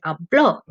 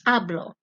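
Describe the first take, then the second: First: Habló with the stress on the final o, ha-BLO. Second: Hablo stressed on the first syllable, HA-blo; plain hablo. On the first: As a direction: land firmly on the last o of "habló". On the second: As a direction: say "hablo" with the weight on ha, the o unstressed. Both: Shown as a demonstration. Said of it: "It's important that you accent the O".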